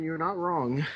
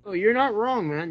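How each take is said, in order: First: Said in the usual way. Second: Emphatic agreement. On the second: Real, not acted. Agreeing emphatically with the freakout remark.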